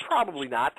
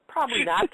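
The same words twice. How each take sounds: First: Said in the usual way. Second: "Probably not." again, pitched way up and louder for emphasis; a loud, mocking second "Probably not."; emphatic repeat. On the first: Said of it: "smart decision?". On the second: Shown as a demonstration. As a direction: hit "Probably not." high and punchy.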